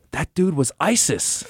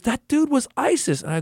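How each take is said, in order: First: Put-on a higher kid voice, hushed in shock; awed little kid. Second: Put-on much higher kid voice, pressing the point; a child repeating himself, sure he's right; insistent little kid. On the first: Wisconsin kid whispers his shock to the adult. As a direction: play the stunned six-year-old. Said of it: "He goes, gasps". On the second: Wisconsin kid insists to the adult, much higher. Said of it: "He goes".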